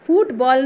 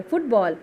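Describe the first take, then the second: First: फुटबॉल with फु stretched into a long foo. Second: फुटबॉल with a quick short u in one jerk; फुटबॉल with the फु clipped short. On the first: Teacher showing pupils the wrong long-u फुटबॉल. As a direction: drag out the u in फुटबॉल. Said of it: "फुटबॉल नहीं बोलते". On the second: Teacher modelling फुटबॉल for pupils, short u. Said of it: "जिसे हम एक झटके में बोल रहे हैं". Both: Shown as a demonstration.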